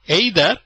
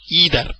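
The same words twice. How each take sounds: First: It is said with a British pronunciation. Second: It is said with an American pronunciation. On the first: "is a British pronunciation" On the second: "Americans say"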